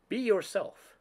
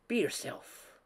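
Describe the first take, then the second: First: Said in the usual way. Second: Breathy whispered advice, higher and hushed; soft whisper. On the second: A narrator's reading. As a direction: whisper it gently to her like a secret. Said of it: "she said softly".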